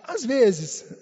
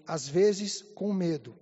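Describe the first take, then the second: First: ÀS VEZES louder, pitched up and falling; imitating mother's emphasis. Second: Low, drawn-out quoted confession; imitating mother's admission. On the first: Son shows how mother said it, "Às vezes" stressed loudly. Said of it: "mas fez assim". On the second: Ill mother confesses to her son, slow low imitated admission. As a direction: admit it slowly, in a lowered voice. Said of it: "ela falou assim".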